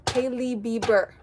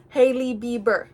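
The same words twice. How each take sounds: The two takes are said the same way.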